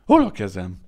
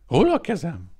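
First: Loud, bewildered question; a shocked loud ask; dazed cry. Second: Higher, louder, rising panic; higher panicked repeat; asking again, louder. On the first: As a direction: call out lost and stunned. Maimed man asks for hands. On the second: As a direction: ask once more, fear creeping in. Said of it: "kérdezte újra". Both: A narrator's reading.

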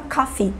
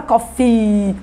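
First: "coffee" mais baixo, com i final sem exagero; i longo discreto. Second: "coffee" com o i final esticado demais; i exagerado. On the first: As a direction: diga "coffee" natural, sem arrastar o i. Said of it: "mas eu vou falar coffee". ("coffee" com um i final sutil) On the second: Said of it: "eu não vou falar coffee". ("coffee" com i final comprido) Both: Shown as a demonstration.

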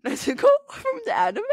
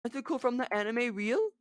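First: Very high excited question; high squeal. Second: Said in the usual way. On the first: Real, not acted. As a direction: squeal it in disbelief. Squealing repeat.

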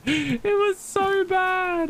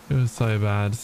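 First: Very high, slow, squeaked-out whine; comic high-pitched wail; squeaky mock whine. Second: Said in the usual way. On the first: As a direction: stretch it out in a tiny cartoon squeak. Exaggerated retelling of bad moment.

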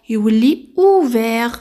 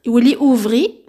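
First: اوفير said with a clear open vert ending, slow and firm; correct form. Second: اوفري said like parti, the wrong past participle; wrong form. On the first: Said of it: "نو". (النطق الصحيح: اوفير ببطء ووضوح) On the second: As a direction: say اوفري as the mistaken form, ending in i. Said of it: "ما تقوليش كيما بارتير". (نطق خاطئ: اوفري على وزن بارتي) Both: Shown as a demonstration.

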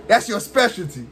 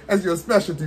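First: Laughing through the taunt; chuckling jab at the opponent. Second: Said in the usual way. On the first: Real, not acted. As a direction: tease him with a laugh.

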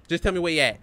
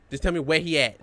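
Both takes have the same delivery.

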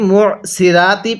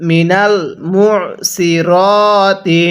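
First: "সিরাতি" with a light s and open "raa"; common-mistake "সিরাতি", thin "si" then "raa"; thin সিন and রা. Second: "সিরাতি" with a full dark s and long rounded "ro", not "raa"; very slow, drawn-out "সিরাতি" as "si-rooo-ti"; heavy সদ and র. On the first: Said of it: "এটা সরটাকে সিন উচ্চারণ হলো". ("সিরাতি"-তে সদের জায়গায় পাতলা সিন, রা উচ্চারণ) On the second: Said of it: "সুতরাং কিভাবে পড়ব". ("সিরাতি"-তে মোটা সদ, লম্বা টেনে "রো") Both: Shown as a demonstration.

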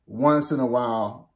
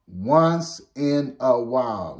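First: Said in the usual way. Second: "Once in a while" slowed, each word weighted, falling at the end; stressed slow repeat of "Once in a while"; emphatic repeat. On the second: Shown as a demonstration. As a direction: lean on "Once" and drag the phrase out. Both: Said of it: "Let me emphasize that".

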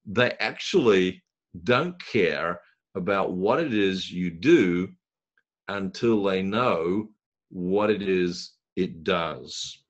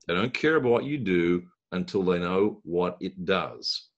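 First: Slow, word by word, each one leaned on; slow emphatic point. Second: Said in the usual way. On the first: Shown as a demonstration. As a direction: spell it out slowly so it sinks in. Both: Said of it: "I'm sorry, but it's true".

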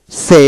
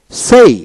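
First: সে with a pure e and no glide; American pronunciation. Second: সেই with an e-to-i glide, higher and lifted; British pronunciation. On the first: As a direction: say সে on one steady vowel. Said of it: "প্রথমটি হলো American". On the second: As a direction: glide up through the vowel of সেই. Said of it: "দ্বিতীয়টি British". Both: Shown as a demonstration.

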